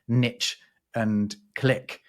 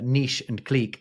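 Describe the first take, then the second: First: Both words get the typical American pronunciation. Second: Both words get the speaker's own usual pronunciation. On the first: "in America, people are more likely to pronounce" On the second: "what I would say"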